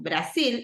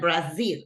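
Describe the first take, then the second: First: It is pronounced the Spanish way. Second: It is pronounced the English way. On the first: The speaker calls it wrong. "not Brazil" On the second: The speaker calls it right. "go in English"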